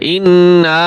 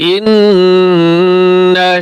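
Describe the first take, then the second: First: The final vowel is drawn out long. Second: The final vowel is short and quick. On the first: The speaker calls it wrong. "অনেকে ভুল করে ইন্না বলে টান দেয়, ইন্না এভাবে টান দেয়" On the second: The speaker calls it right. "টান দেওয়া যাবে না, শুধু জবর"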